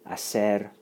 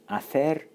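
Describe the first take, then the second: First: It is said with a Latin American Spanish accent. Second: It is said with a Castilian Spanish accent. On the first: "Latin American Spanish, or Southern, Southern Spanish from Southern Spain" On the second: "Castilian Spanish"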